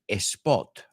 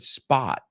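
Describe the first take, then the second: First: An extra vowel sound comes before the s. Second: The word starts directly with the s sound. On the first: The speaker calls it wrong. "I didn't say a spot" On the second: The speaker calls it right. "I said spot"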